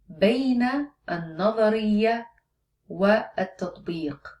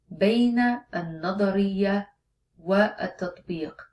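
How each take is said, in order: No difference in how they are said.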